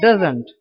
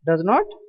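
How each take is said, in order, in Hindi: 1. यह एक संक्षिप्त शब्द के रूप में बोला जाता है। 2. यह दो पूरे शब्दों के रूप में बोला जाता है।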